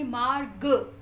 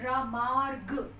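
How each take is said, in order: First: मार्ग said slowly, weight landing on the final ग; stress on ग in मार्ग. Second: र said alone, then मार्ग very slowly with र just grazed; barely touch र in मार्ग, then land on ग; र lightly touched. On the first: Teacher showing students: मार्ग with the push on ग. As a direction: lean into ग of मार्ग, र barely touched. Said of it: "ग पे ऊपर पूरा जोर आ जाता है". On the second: Teacher to class: slow मार्ग, र just touched. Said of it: "र को हम थोड़ा सा टच करते हैं". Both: Shown as a demonstration.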